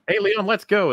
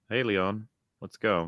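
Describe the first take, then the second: First: It is said with lively, expressive intonation. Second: It is said flat, with no expression. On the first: The speaker calls it right. "So instead of like" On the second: The speaker calls it wrong. "she just delivers everything deadpan"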